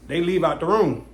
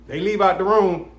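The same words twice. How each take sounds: The two takes are said the same way.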